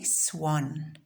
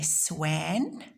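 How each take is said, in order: First: The vowel sounds like the o in hot. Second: The vowel sounds like the a in cat. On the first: The speaker calls it right. "we say swan" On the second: The speaker calls it wrong. "We don't say swan"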